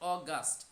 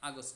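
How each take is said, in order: First: The first vowel is a rounded 'o' sound. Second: The first vowel is an open 'a' sound. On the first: The speaker calls it right. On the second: The speaker calls it wrong. "আগস্ট না"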